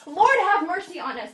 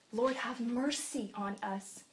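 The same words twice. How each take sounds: First: Much louder and higher, laughing; louder plea. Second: Slow, much softer plea; quiet plea. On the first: Blind men crying out despite the crowd, loud. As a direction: cry it out over the crowd. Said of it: "The crowd told him to be quiet". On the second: Preacher showing the quiet plea, slow and soft. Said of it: "quiet first take". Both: Shown as a demonstration.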